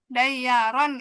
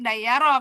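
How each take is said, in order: First: The word ends with an n sound. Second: The word ends on a bare vowel. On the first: The reading continues into the next word. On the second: The reading stops at this word.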